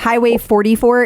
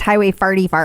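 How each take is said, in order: First: It is said with standard vowels. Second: It is said in the local accent.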